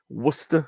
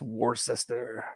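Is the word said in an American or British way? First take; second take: British; American. First: It is said the way the English say it. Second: It is said the way Americans say it. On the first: "as we call it in England" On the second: "as you probably pronounce it in the States"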